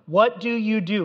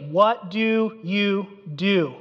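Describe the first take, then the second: First: Said in the usual way. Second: "What do you do?" drawn out slowly, each word weighted; slow emphatic question. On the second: Shown as a demonstration. Preacher repeating the sailors' question slowly for the congregation.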